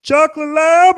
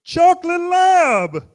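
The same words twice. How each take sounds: First: High, loud, odd-voiced stranger asking; goofy grown man. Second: High, loud, slow and flat-ended insistence; goofy man, insisting. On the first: Stranger in the crosswalk asking about the dog, high goofy voice. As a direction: pop the question up high like an overeager stranger. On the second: Retold or imitated. Stranger repeating the breed to a confused dog owner, slow and high. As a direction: drag it out like he's repeating himself patiently. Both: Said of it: "and goes".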